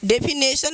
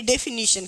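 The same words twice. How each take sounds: First: डेफिनेशन with a plain s, marked as wrong; the careless way pupils say डेफिनेशन; wrong pronunciation. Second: डेफिनेशन said carefully with a "sh" ending; correct pronunciation. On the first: Teacher showing pupils the wrong way to say डेफिनेशन, sharply. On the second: Teacher modelling the correct sound of डेफिनेशन for pupils. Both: Shown as a demonstration. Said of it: "डेफिनेशन नहीं".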